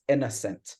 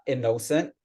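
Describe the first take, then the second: First: "innocent" stressed the right way, on the syllable she marks; correct stress on innocent. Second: "innocent" with the stress on the wrong syllable. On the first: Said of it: "it's innocent". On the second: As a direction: say "innocent" the way it should not be said. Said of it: "So it's not innocent". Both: Shown as a demonstration.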